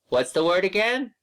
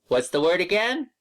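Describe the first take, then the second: Both takes have the same delivery.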